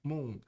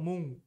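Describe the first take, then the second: Both takes have the same delivery.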